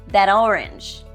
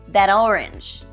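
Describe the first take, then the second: The two takes are said the same way.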